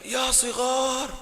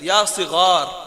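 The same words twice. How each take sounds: First: It is drawn out in a mournful, theatrical tone. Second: It is said plainly and clearly, without drama. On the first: It is acting rather than speech-making. The speaker calls it wrong. "बहुत ही गमगीन अंदाज से अदा करने के चक्कर में" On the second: It is proper speech-making. The speaker calls it right. "Clarity के साथ"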